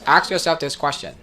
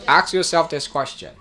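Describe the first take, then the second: Both takes have the same delivery.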